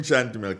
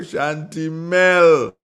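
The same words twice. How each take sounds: First: Said in the usual way. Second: Shantimel stretched out slowly, loud and high; hyped place name. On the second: Real, not acted. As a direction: drag out Shantimel slowly like a cheer. Celebrating the caller's hometown.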